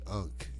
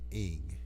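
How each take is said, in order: First: The word is said like 'unk'. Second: The word is said like 'ing'. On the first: The speaker calls it wrong. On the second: The speaker calls it right.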